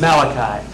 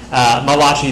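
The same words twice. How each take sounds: First: The name is said with an ordinary English pronunciation. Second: The name is said with an Italian-sounding pronunciation. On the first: The speaker calls it right. "But it's not Malachi. His name is Malachi" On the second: The speaker calls it wrong. "used to pronounce this Malachi. Malachi, the Italian prophet"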